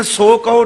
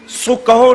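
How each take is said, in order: First: ਸੋ ਕਹੋ with a long o in ਸੋ; mispronunciation shown. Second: ਸੋ ਕਹੋ with ਸੋ said as short "su"; careful correct pronunciation. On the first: Retold or imitated. Preacher quoting a reader's mistake, long-o ਸੋ. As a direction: round ਸੋ to a full "so". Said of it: "ਉੱਥੇ ਹੋੜਾ ਨਹੀਂ". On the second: Shown as a demonstration. Preacher correcting the reading, short-u su kaho. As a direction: use a short u in ਸੋ, slowly. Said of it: "ਔਂਕੜ ਬੋਲਣੀ ਹੈ".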